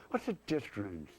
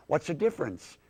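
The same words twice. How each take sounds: First: Dismissive dummy. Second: Said in the usual way. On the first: Acted. Schoolkid dummy answers the math teacher, soft dismissive throwaway. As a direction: toss it off quietly in a puppet voice.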